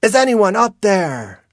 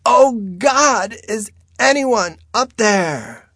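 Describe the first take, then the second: First: Loud, high call for help; high, ringing shout. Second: Very high, loud desperate scream; slow, high-pitched desperate yell; screamed plea. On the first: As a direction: holler upward to whoever might be above. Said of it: "she calls out". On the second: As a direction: scream for help, dragging out the call. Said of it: "She screams". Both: A narrator's reading.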